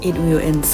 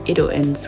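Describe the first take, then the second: First: It will is said as two full words. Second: It will is contracted into one word. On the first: The speaker calls it wrong. "และพวกเขาจะไม่พูดว่า" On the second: The speaker calls it right. "แต่พวกเขาจะพูดว่า"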